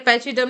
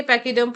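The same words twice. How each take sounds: First: Pachyderm with ch as in chin, "pa-chee-derm"; mistaken pronunciation. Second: Pachyderm with ch as a hard k, "pa-kee-derm"; correct pronunciation. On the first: Teacher warning how not to read it, mistaken pronunciation. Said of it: "इसे pachyderm नहीं पढ़ेंगे". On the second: Teacher showing how to read it, correct pronunciation. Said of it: "pachyderm पढ़ेंगे". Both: Shown as a demonstration.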